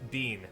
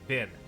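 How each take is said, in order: First: It is said with a Canadian pronunciation. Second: It is said with an American pronunciation. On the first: "in Canadian English, we say" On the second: "in the standard American dialect, it's like"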